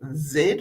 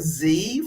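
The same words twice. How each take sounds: First: The letter is said the British way, zed. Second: The letter is said the American way, zee.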